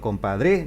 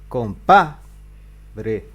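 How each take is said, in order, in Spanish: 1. La tónica se aleja de la penúltima sílaba. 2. La tónica cae en la penúltima sílaba. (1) "si yo digo compadre, no" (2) "vamos a poner la palabra grave"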